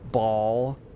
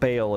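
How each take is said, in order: First: The name rhymes with 'ball'. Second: The name rhymes with 'bale'. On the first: "apparently Ball is how you say it" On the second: "I still think Bale is a superior pronunciation"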